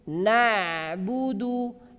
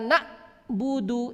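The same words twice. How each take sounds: First: The ain flows on clearly without cutting off. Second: The ain is cut off like a glottal stop. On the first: The speaker calls it right. "berjalan sedemikian rupa tetapi tidak terlalu banyak" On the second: The speaker calls it wrong. "ini salah karena dia memotong"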